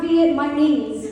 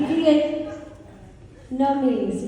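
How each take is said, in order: First: The word is said at a normal pace. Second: The word is said slowly, syllable by syllable. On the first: The speaker calls it wrong. "it is not Viet my knees" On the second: The speaker calls it right. "I had to slow that down too"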